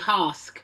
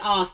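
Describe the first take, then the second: First: The word begins with an added h sound. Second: The word begins without an h sound. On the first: "they say hask" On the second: "if they were to say ask"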